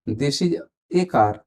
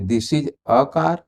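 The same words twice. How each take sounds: First: This is a car, slow, with a stressed a said as ay; strong a. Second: This is a car with a weak unstressed a, like uh; a said as a short quick uh. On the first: Teacher showing students the strong a, slow and stressed. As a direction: stretch the a into a clear ay. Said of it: "जो strong है जब हम stress देते हैं तो ए भी होता है". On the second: Teacher showing students the weak a, relaxed and unstressed. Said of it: "जो कमजोर प्रोनाउंसिएशन है वो अ होता है". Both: Shown as a demonstration.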